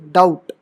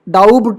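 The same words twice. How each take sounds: First: No b sound is heard before the t. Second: A b sound is heard before the t. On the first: The speaker calls it right. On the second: The speaker calls it wrong.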